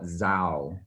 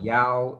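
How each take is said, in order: First: It is said with a Northern Vietnamese accent. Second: It is said with a Southern Vietnamese accent.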